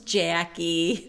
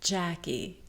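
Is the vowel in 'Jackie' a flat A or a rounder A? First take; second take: flat A; rounder A. First: The A sounds flat and nasal, Midwestern style. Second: The A sounds rounder, without the flat quality. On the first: "We've got those horrible flat A sounds" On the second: "Martha doesn't say Jackie. She says Jackie"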